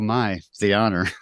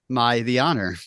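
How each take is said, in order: First: There is a pause after "my". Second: It runs straight on with no pause. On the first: The speaker calls it right. "Instead of just sarcastic" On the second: The speaker calls it wrong. "a line reading, from uh, the mighty Brigitte Nielsen"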